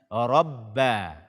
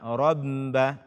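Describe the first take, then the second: First: The doubled b is said without nasal sound. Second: The doubled b is said through the nose. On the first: The speaker calls it right. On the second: The speaker calls it wrong.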